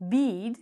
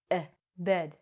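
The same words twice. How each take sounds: First: "bead" with a long E, in place of bed; wrong long E. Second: "bed" with a short "eh" vowel; correct short E. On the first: Teacher shows how bed would sound wrong, long E. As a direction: stretch "bead" with the letter-name E. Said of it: "If we said it like this". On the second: Teacher corrects bead to bed, short E. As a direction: sound out "eh", then "bed" with that short E. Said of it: "say it like a short vowel". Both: Shown as a demonstration.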